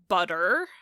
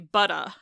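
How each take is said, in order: First: The word ends with an R sound. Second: The word ends with a vowel, no R. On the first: "that er is basically just an American English R by itself" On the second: "they just drop that R off entirely and replace it with a vowel"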